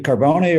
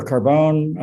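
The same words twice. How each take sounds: First: Carbone said with the final e sounded, car-BOH-nee; Italian-style pronunciation. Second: Carbone said with a silent e, car-BONE; anglicised pronunciation. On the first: Judge checking counsel's name, Carbone with sounded final e. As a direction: say Carbone in three syllables, ending in "ee". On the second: Judge offering the other reading, Carbone with silent e. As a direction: say Carbone in two syllables, rhyming with bone. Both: Shown as a demonstration. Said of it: "I don't wanna mispronounce your name".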